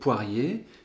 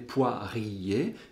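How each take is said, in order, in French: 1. Le mot se prononce en deux syllabes. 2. Le mot se prononce en trois syllabes. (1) "poirier ne comporte que deux syllabes" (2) "personne ne dit jamais poirier"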